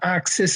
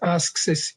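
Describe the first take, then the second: First: The verb is pronounced ax, without the k. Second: The verb is pronounced ask, with the k. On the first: "that old um, uh, Dublin, maybe Irish habit of saying ax instead of uh, ask" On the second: "he didn't pronounce it as ask Sis"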